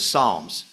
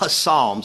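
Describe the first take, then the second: First: The word begins with an S, no P. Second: The word begins with a sounded P. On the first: The speaker calls it right. "you don't pronounce the P" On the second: The speaker calls it wrong. "It's not Psalms"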